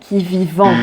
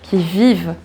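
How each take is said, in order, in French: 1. La terminaison du verbe se prononce. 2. La terminaison du verbe est muette. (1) "ne prononce jamais qui vivant" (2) "on ne prononce jamais ce E N T"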